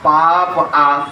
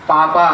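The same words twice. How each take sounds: First: पाप आ said very slowly as two words, पाप then आ; पाप आ, drawn out with a break before आ; split into पाप आ. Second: Said in the usual way. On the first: Shown as a demonstration. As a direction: stretch पापा apart into पाप आ.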